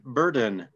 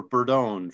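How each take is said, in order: First: Burden, stressed on BUR with a weak ending; English-style pronunciation. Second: Burdone, ending like "own"; alternative pronunciation. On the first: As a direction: say Burden like the English word for a load. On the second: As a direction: say Burdone with a long o in the last syllable. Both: Real, not acted. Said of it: "uh, or Burdone".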